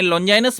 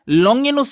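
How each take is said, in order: First: The name is said with a j sound. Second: The name is said with a g sound. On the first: "उनके नाम के भिन्न भिन्न उच्चारण है" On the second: "उनके नाम के भिन्न भिन्न उच्चारण है"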